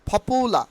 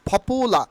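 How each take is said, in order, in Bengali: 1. প্রথম p aspirated, ফুঁ সহ। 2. প্রথম p অ্যাসপিরেটেড, ফুঁ সহ।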